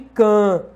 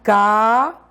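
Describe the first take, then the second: First: The vowel is nasal, through the nose. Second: The vowel is oral, without nasal sound. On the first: "pode ser o que a gente chama de nasal" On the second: "Ele é oral quando, obviamente, é pronunciado livremente"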